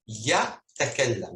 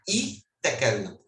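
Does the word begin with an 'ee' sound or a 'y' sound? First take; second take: y sound; ee sound. First: The word begins with a consonant y sound. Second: The word begins with a vowel ee sound. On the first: The speaker calls it right. "Sempre o ia do começo é pronunciada como Y" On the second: The speaker calls it wrong. "Se a gente for pronunciar a letra ya como I"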